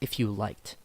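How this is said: It is said with conviction and enough volume. The speaker calls it right. "I say it with meaning. And I try to say it loudly enough"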